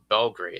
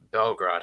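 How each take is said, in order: First: The name is said with an English pronunciation. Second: The name is said with a Serbian pronunciation.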